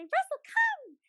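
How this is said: It is said in an excited, lively voice. The dog should come. The speaker calls it right. "run away and be really excited"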